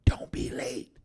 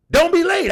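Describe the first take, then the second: First: Whisper. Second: Emphatic shout. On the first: Shown as a demonstration. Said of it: "repeated as whisper". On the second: Real, not acted. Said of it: "emphatic advice".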